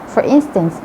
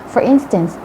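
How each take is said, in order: Both takes have the same delivery.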